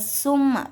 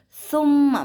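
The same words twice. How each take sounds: First: The word begins with a plain s sound. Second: The word begins with a soft th sound. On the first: The speaker calls it wrong. "bukan summa" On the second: The speaker calls it right. "tapi summa menggunakan huruf sa"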